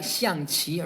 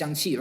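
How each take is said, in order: First: It is said with Chinese tones. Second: It is said without Chinese tones. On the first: "If you want to pronounce it the the proper Chinese way" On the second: "So without the tones, it's just xiangqi"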